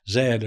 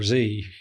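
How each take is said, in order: First: The letter is said in a non-American way. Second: The letter is said in the American way.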